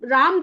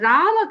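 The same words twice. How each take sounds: First: The word ends on a bare m consonant. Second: The word ends with a short a vowel. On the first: The speaker calls it wrong. "उसके नीचे हलंत हो गया" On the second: The speaker calls it right. "हमेशा मुंह को खोलना है, आपको अ निकलना है"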